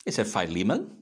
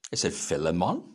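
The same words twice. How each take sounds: First: "Philemon" as fye-LEE-mun, questioning rise; long I. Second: "Philemon" as FILL-uh-mon, questioning rise; short I. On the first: Minister asking the congregation how to pronounce it, "Philemon" as fye-LEE-mun. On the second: Minister offering the congregation another pronunciation, "Philemon" as FILL-uh-mon. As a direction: say "Philemon" with a short first syllable, stressed. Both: Shown as a demonstration. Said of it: "How do we pronounce it?".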